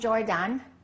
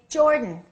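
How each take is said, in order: First: The last vowel is a full, unreduced sound. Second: The last vowel is reduced to a weak sound. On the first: The speaker calls it wrong. "Don't say" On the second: The speaker calls it right. "Reduce that A and say"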